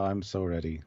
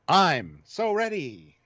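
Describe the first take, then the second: First: It is said flatly, without much emotion. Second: It is said with more emotion and emphasis.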